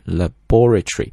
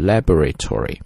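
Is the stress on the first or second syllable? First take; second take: second; first. First: British accent, stress on the second syllable. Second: American accent, stress on the first syllable.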